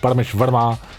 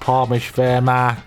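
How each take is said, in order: First: It is said in his natural voice. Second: It is said in a put-on British-style voice.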